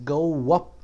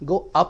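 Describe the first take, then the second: First: A w sound links the two words. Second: The two words are joined with no w sound. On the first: The speaker calls it right. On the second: The speaker calls it wrong.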